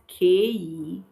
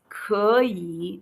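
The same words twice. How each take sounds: First: The first vowel sounds like 'ee'. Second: The first vowel sounds like 'uh'. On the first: The speaker calls it wrong. "not 可以 ... you are pronouncing it like the English E" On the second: The speaker calls it right. "so it is 可以 ... You call it like you're calling U H H"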